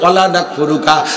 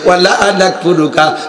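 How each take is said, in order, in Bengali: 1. 'la' এর স্বরধ্বনিটি ছোট করে বলা হয়। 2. 'la' এর স্বরধ্বনিটি টেনে লম্বা করে বলা হয়। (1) "লারে যদি না টানি" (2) "জীবনে কোনোদিন তোমার কুফরি করব না"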